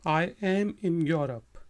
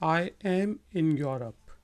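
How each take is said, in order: No difference in how they are said.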